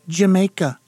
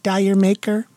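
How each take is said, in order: First: It sounds like the word 'Jamaica'. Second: It sounds like the words 'dire maker'. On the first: The speaker calls it right. "it's actually Jamaica" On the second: The speaker calls it wrong. "you guys keep pronouncing that song wrong"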